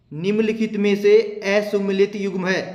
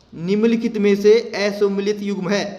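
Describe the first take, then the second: Both takes have the same delivery.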